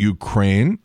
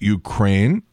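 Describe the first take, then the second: First: The stress is on the second syllable. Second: The same.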